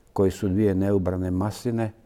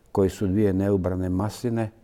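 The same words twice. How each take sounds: No difference in how they are said.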